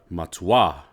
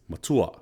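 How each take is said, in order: First: The stress is on the last syllable. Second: The stress is on the second syllable. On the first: It means extremely or very. "when you have the macron at the end" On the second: It means older. "you would emphasize the u because it's a second to the last syllable"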